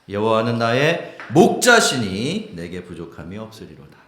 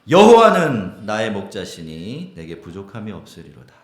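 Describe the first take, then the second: First: The stress falls on 목자시니. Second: The stress falls on 여호와는.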